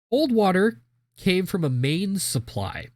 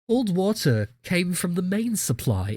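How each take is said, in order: First: It is read in a plain American accent. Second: It is read in an attempted British accent.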